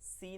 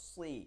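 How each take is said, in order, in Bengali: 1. ব্যঞ্জনটি পাতলা ও হালকাভাবে বলা হয়। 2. ব্যঞ্জনটি মোটা ও ভরাটভাবে বলা হয়। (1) "সি না" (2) "বলো সি"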